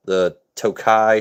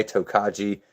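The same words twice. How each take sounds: First: "Tokai" said toh-KAI, with no final jee; "Tokai" drawn out, two syllables; alternative pronunciation. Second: "Tokaji" said toh-KAH-jee; "Tokaji" with the j sounded; alternative pronunciation. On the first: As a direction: say "Tokai" slowly, ending on an eye sound. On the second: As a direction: say "Tokaji" in three syllables, ending in jee. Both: Shown as a demonstration. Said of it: "however you aficionados would like to pronounce".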